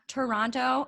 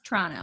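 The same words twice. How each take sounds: First: The second t is clearly pronounced. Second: The second t is dropped. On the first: The speaker calls it wrong. "There's not Toronto" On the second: The speaker calls it right. "It's Toronto"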